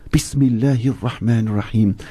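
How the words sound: It is said with deep, heartfelt feeling.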